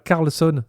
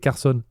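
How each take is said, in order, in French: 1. Le nom a un son L avant le S. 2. Le nom n'a pas de son L avant le S. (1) "c'est pas Carlson. C'est moi qui le prononce mal" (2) "c'est Carson"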